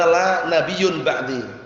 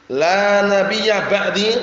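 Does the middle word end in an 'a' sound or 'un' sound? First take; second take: un; a. First: The middle word ends with an 'un' sound. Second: The middle word ends with a short 'a' sound. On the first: La is a prophet after me. The speaker calls it wrong. "dibaca la nabiyyun ba'di" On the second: There is no prophet after me. The speaker calls it right. "ada juga yang membaca hadis"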